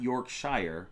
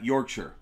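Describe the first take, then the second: First: The word is said as it is spelled. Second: The word is not said as it is spelled. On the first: The speaker calls it wrong. "not Yorkshire, even though that's how it's read" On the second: The speaker calls it right. "Keith says I'm saying it right"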